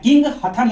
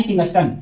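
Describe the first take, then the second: First: "किंग हथन" as two words, with थ replacing the st of Kingston; "किंग", then "हथन", as separate words; sound-alike split name. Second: Said in the usual way. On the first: Shown as a demonstration. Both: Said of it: "यानी किंगस्टन".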